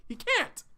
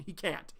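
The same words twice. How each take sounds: First: "can't" flung up high and loud; insist, voice leaping on "can't"; emphatic insistence. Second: Said in the usual way. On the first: Real, not acted. Telling the viewers Terrence cannot stay, high and emphatic. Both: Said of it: "repeated insistence".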